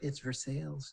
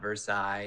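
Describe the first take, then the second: First: The name is said the local Kentucky way. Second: The name is said the way outsiders say it. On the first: This is how locals say it. The speaker calls it right. "in Kentucky, it's like" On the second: This is how people from elsewhere say it. The speaker calls it wrong. "they all say"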